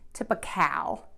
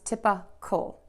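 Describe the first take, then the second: First: The last syllable has a full vowel like cow. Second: The last syllable is a very short kl sound. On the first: The speaker calls it wrong. "people will say cow, typical, and that's not correct" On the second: The speaker calls it right. "It's typical"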